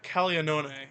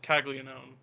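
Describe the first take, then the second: First: The name is pronounced with Italian sounds. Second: The name is pronounced with English sounds. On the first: This is the form the name has in its home language. The speaker calls it right. "is how you should pronounce it" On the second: This is the form the name's bearer uses himself. The speaker calls it wrong. "but he says"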